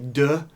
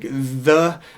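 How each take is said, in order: First: The word begins with a hard d sound. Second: The word begins with a soft th sound. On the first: The speaker calls it wrong. "we don't want to say de" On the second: The speaker calls it right. "things like the are very important to, to nail"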